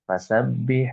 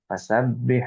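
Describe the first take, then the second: The two takes are said the same way.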